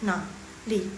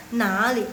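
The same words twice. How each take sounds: First: "nali" broken into two low third tones; halting, separated syllables in "nali"; unsmooth tone demo. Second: "nali" run together, "na" rising into "li"; second-tone "na" flowing into "li"; smooth tone change. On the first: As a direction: split "nali" into a stiff "na", then "li". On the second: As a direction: link "nali" in one flowing glide. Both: Shown as a demonstration. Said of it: "Kan nggak sun".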